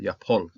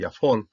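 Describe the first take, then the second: First: The middle consonant is a strong aspirated p. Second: The middle consonant is a soft f sound. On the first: The speaker calls it right. "strong P, uh, aspirated P" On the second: The speaker calls it wrong. "I was tempted to say Yafol, but no"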